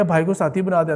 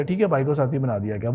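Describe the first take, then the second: First: Said in the usual way. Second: Quick, offhand acceptance, lower; mock casual reader shrugging it off; careless reader. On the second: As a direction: rattle it off without a second thought. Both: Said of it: "آپ کا پڑھنا ایسے ہوتا ہے کہ آپ نے پڑھ لیا".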